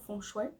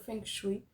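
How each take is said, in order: First: It is pronounced in a more Chinese-style way. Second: It is pronounced in a Portuguese-style way.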